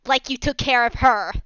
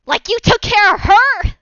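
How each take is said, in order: First: A firm, slightly raised retelling of the cry; toned-down mock shout; milder repeated shout. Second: High, loud accusing shout; a sudden furious outburst from a strange voice; shouting in a different voice. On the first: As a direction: say it again for the one who missed it, only a bit louder. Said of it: "He shouts". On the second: Acted. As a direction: hurl it at him with full force. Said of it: "as he shouts".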